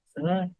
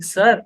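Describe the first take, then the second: First: It is said extremely softly, almost inaudibly. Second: It is said gently but at audible volume.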